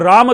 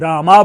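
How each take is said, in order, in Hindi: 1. नाम का अंत व्यंजन "m" पर होता है। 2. नाम के अंत में एक लंबा "a" जोड़ा गया है। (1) "राम तो हम लोग मां स्वतंत्र बोलते हैं" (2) "इंग्लिश के माध्यम से बोलने वाले होते हैं तो वे रामा बोल जाते हैं"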